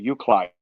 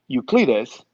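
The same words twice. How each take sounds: First: The name has an American English pronunciation. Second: The name has a Spanish pronunciation.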